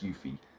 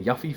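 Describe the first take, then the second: First: The first syllable sounds like 'you'. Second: The first syllable sounds like 'yuff'. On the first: "Y U F I E says Yuffie" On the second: "Double F is Yuff. I've been saying Yuffie"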